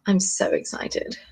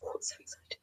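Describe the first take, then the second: First: Slow, breathy hush; whispered excitement. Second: Very soft whispered thrill. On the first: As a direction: hold it in. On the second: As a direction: whisper your secret joy. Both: Real, not acted. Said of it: "intensely excited".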